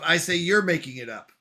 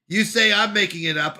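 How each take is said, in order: First: "you're" leaned on as a retort; emphasis falls on "you're"; stress on YOU'RE. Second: "I'm" leaned on in contrast; emphasis falls on "I'm"; stress on I'M. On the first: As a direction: throw it back with emphasis on "you're". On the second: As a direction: set "I'm" against the other person. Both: Shown as a demonstration. Contrasts whose claim it is.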